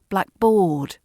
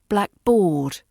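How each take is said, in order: No difference in how they are said.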